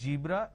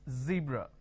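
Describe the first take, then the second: First: It begins with a j sound. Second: It begins with a z sound. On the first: The speaker calls it wrong. "replace the z with a j" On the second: The speaker calls it right. "It's a z sound"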